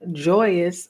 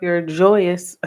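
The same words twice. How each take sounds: First: Joyous broken by a real laugh. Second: Said in the usual way. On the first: Real, not acted. Reader cracks up over the affirmation to Virgo, laughing. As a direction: laugh through the word joyous. Laughs while repeating the word. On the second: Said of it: "what did it say?".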